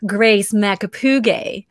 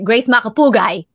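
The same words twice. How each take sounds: First: The surname is said with Americanized stress. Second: The surname is said with Filipino stress. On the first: This is how the family member says it herself. "when she pronounces her last name, she would say" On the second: This is how it is said among other Filipinos. "if you were to speak to other Filipinos, she would change the accent"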